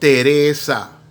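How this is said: The name is said with Spanish pronunciation. The name is said as in its own language. The speaker calls it right. "if I'm speaking a Spanish name, I'm going to say it"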